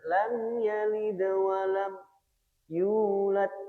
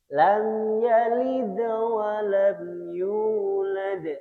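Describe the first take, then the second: First: The phrase is broken by a brief stop. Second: The phrase flows on without any stop. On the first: The speaker calls it wrong. "bukan ... tidak perlu disaktah" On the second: The speaker calls it right. "jadi langsung disambung mawon"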